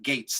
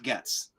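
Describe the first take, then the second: First: The vowel is long, like in 'gates'. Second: The vowel is short, like in 'gets'. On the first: The speaker calls it right. "one million percent Gates" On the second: The speaker calls it wrong. "not Getz"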